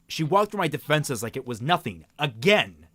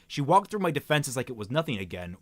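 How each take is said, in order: First: The word again is emphasized. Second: The word again is not emphasized.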